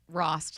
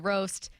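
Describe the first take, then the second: First: The name rhymes with frost. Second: The name rhymes with roast. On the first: The speaker calls it right. "like frost, but you take off the F" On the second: The speaker calls it wrong. "they say roast, they can't stop themselves"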